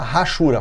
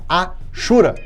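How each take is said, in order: First: The word begins with a rough consonant sound. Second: The word begins directly with a vowel sound. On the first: The speaker calls it wrong. "Aluno meu não fala rachura" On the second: The speaker calls it right. "fala achura"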